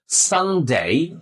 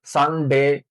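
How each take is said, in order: First: সানডে with a long gliding "ay" in ডে; posh pronunciation. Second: সানডে with a short pure "e" in ডে; usual Bengali pronunciation. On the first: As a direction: draw out "san-dey", tune dipping then rising. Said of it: "ফস উচ্চারণটা আমরা শিখে নিলে". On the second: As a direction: say সানডে briefly as Bengali "san-de", level tune. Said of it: "সাধারণত আমরা এগুলোর উচ্চারণ করি". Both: Shown as a demonstration.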